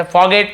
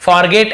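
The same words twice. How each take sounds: First: Forget said 'faw-get', R dropped; silent R. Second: Forget with a full R, 'for-get'; R sounded. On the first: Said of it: "थोड़ा आर silent होता है". (forget में र silent) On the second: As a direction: pronounce the R in forget. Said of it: "ऐसे नहीं बोलते". (forget में र पूरा बोलते हुए) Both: Shown as a demonstration.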